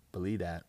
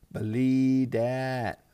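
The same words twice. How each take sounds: First: Said in the usual way. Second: Stretched way out, loud and higher; loud drawn-out boast. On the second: Real, not acted. Fantasy player bragging about his trades, loud drawn-out boast. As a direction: crow it slowly, holding each word.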